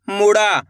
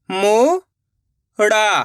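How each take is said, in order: First: Said in the usual way. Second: मुड़ा stretched slowly, sound by sound; drawn-out syllables. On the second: Shown as a demonstration. Teacher sounding out a word for children, very slowly. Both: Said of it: "direct मात्रा का उच्चारण करके पढ़ेंगे".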